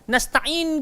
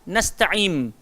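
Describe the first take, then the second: First: The word ends with an n sound, lips open. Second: The word ends with an m sound, lips closed. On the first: The speaker calls it right. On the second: The speaker calls it wrong.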